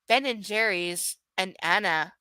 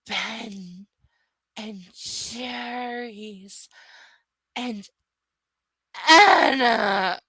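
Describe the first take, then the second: First: It is said at an ordinary reading pace. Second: It is said slowly, every syllable clearly enunciated.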